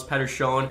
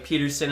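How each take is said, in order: First: "Pettersson" said PET-er-shon, Swedish style; "Pettersson" with a short e and shon ending; Swedish pronunciation. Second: "Peterson" said PEE-ter-sun, English style; "Peterson" with a long ee, English way; English pronunciation. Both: Shown as a demonstration. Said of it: "saying that I didn't say his name right".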